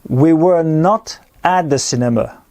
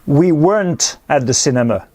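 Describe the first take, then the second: First: Were and not are said as two words. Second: Were and not merge into one contracted word.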